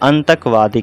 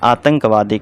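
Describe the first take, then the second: First: The nasal sound comes after the first syllable. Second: The nasal sound comes after the second syllable. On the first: The speaker calls it wrong. "अंतकवादी कहेंगे आप, यह गलत हो जाएगा" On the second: The speaker calls it right. "आतंकवादी कहा जाता है"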